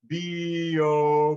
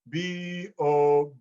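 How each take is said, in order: First: The two vowels blend smoothly into each other. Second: The second vowel starts crisply with a glottal stop. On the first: "do you hear how they kind of blend one to the next?" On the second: "I'm connecting, but they're just precise"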